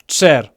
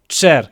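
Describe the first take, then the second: No difference in how they are said.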